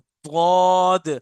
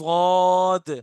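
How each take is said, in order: The two takes are said the same way.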